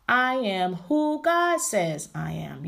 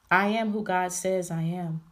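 First: Very slow, every word of "I am who God says" drawn out strongly; emphatic declaration. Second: Said in the usual way. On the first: Shown as a demonstration. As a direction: proclaim "I am" slowly, punching "God". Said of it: "putting the emphasis on". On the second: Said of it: "putting the emphasis".

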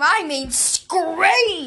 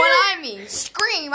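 First: "scream" stretched extremely long and high; huge, high, slow emphasis on "scream"; exaggerated stress on scream. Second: "scream" raised and somewhat drawn out; high, moderately stretched "scream"; emphasis on scream. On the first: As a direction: drag out "scream" as far as it goes. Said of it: "And when I mean scream". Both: Shown as a demonstration.

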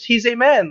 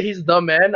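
First: "a" said as a full AY, pitched up; higher-pitched, flustered slip with "a" as AY; mistaken A. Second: "the" said clearly as the corrected word; intended THE. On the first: Retold or imitated. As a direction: retell the slip, sounding "a" clearly as AY. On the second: Shown as a demonstration. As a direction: set "the" apart as the meant word. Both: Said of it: "trying to say he's the man".

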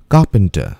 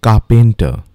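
First: "Carpenter" said KAH-pun-tuh; "Carpenter" with a weak middle syllable; careful "Carpenter", kah-pun-tuh; correct pronunciation. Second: "carpenter" said kah-PEN-tuh; "carpenter" with a full pen in the middle; mispronounced "carpenter", kah-pen-tuh; wrong pronunciation. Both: Shown as a demonstration.

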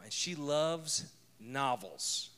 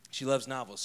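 First: "loves" drawn out slowly and leaned on; "she loves novels" stretched, weight on "loves"; stress on loves. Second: Said in the usual way. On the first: Real, not acted. Slow emphatic repeat about wife.

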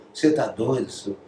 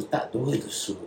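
First: A hint of a Minas Gerais accent; light Minas Gerais accent. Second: Said in the usual way. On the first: Rubinho doubting the singer, in a light Minas Gerais accent. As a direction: mildly imitate the drummer's Minas Gerais accent. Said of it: "O sotaque mineiro".

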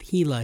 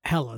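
First: "Hela" with a long ee, HEE-la; mispronounced name. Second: "Hela" with a short e, HEL-a; corrected pronunciation. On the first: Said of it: "thanks for correcting me on the air". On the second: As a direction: say "Hela" as HELL-uh. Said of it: "that's what I meant". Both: Real, not acted.

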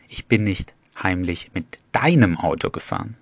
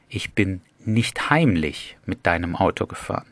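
First: "deinem" rises and stands out; stress on DEINEM. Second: "heimlich" carries the accent with a rise; stress on HEIMLICH. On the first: Teacher moves the stress to "deinem". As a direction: punch "deinem", as in your car of all cars. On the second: Teacher moves the stress to "heimlich". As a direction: lean on "heimlich". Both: Shown as a demonstration. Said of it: "die Betonung immer auf andere Wörter legen".

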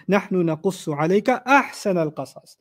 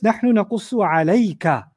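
First: أَحْسَنَ picked out within the recited phrase; stress on أَحْسَنَ. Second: عَلَيْكَ stretched out at the end of the phrase; stress on عَلَيْكَ. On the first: Teacher showing the best of all stories, stress on أَحْسَنَ. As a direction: recite on, then lean on أَحْسَنَ. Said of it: "And then the third greatness". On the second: Teacher showing who the verse addresses, stress on عَلَيْكَ. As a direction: lean on عَلَيْكَ and draw it out. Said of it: "there's an emphasis on the first recipient". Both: Shown as a demonstration.

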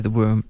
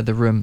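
First: "womb" said with a w for room; accidental "womb" in place of room; slip of the tongue. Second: Said in the usual way. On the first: Real, not acted. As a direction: slip the first sound of "womb" into a w. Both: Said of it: "the Freudian slip".

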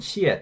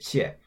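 First: The first xie with a full falling tone; fourth tone. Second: The second xie light, without a tone; toneless. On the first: Teacher showing the syllable before its tone is removed, fourth tone. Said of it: "forget to remove the tone". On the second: Teacher showing the second syllable of thank you, toneless. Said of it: "remove the tone from the second". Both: Shown as a demonstration.

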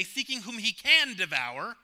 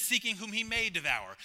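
First: "can" punched high in "seeking whom he can devour", rising at the end; stress on CAN. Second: "may" stressed, falling firmly to the end. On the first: Preacher rejecting a misreading of the verse, stress on "can". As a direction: lean hard on the word "can", pitched up. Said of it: "There's a big difference between can and may". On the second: Preacher correcting the verse's wording, stress on "may". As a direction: land on the word "may" and close the line down. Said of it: "The word that always jumps out to me in that verse is the word may". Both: Shown as a demonstration.

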